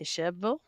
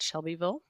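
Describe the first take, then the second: First: The name is pronounced in a clipped, local way. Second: The name is pronounced fully, syllable by syllable.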